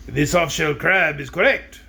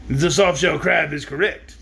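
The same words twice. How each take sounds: First: Wrong voice. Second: Slow, lightly voiced wizard attempt; a failed try at the wizard. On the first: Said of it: "Oh, I'm sorry, that was the wizard". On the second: Reader retrying the wizard's line, slow. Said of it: "I can't do the wizard's voice". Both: Shown as a demonstration.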